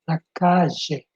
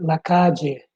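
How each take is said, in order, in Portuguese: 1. É falado com sotaque argentino. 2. É falado com sotaque peruano. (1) "Em Argentina se diz la calle" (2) "Em Peru já se diz la calle"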